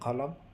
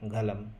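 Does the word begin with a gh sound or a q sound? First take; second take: q; gh. First: The word begins with a deep q sound. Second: The word begins with a gh sound. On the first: "কফ দিয়ে যখন কলম, কেউ যদি বলে কলম, তাহলে সেক্ষেত্রেও ঠিক আছে" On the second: "সেটাকে তারা গয়েন দিয়ে বা গালাম"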